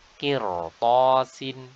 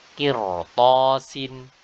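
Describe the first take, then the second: No difference in how they are said.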